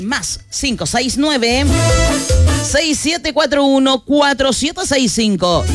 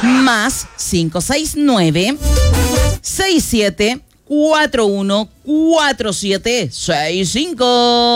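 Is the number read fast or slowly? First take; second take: fast; slowly. First: The number is read at normal speed. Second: The number is read more slowly.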